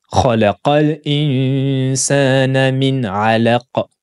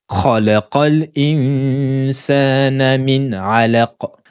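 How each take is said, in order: No difference in how they are said.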